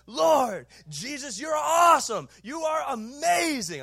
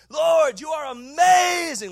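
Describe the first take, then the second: First: Loud, high, passionate prayer cry; shouted prayer. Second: Loud high cry, amazing drawn out slowly; shouted prayer. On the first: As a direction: belt it out like praying from the platform. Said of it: "and I'm going". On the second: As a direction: cry out to the Lord at full voice, slowly. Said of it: "like that". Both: Retold or imitated.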